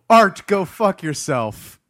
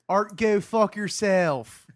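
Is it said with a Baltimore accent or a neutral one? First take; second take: neutral; Baltimore. First: It is said in his ordinary accent. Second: It is said in a Baltimore accent.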